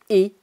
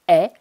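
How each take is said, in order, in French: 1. La voyelle est le son 'é' plus fermé. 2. La voyelle est le son 'è' plus ouvert. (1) "et non et comme on l'entend souvent" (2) "le E T en fin de mot doit se prononcer est"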